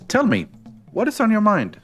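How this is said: It is said with a pause inside. "there was no comma listed there, and I'm disappointed"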